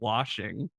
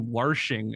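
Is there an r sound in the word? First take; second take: no; yes. First: The word has no r sound after the vowel. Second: The word has an r sound after the vowel. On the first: It is the usual pronunciation. "instead of" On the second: It is a regional Tennessee pronunciation. "my mom will say"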